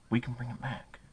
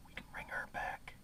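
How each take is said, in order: First: Hushed appeal. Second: Barely audible whisper; whispered appeal. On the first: Earnest rallying appeal, voice dropping. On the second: Urging viewers to save the American dream, whispered. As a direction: drop right down to a whisper for the plea. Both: Real, not acted.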